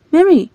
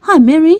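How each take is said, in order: First: Said in the usual way. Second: High loud call with a rising tune. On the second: Acted. Young man calling out to Mary, rising call. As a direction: call her name across the field.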